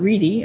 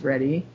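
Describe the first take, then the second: First: The first vowel is long, as in 'reed'. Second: The first vowel is short, as in 'red'. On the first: The speaker calls it wrong. "and not Reedy" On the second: The speaker calls it right. "I guess his name is pronounced Reddy"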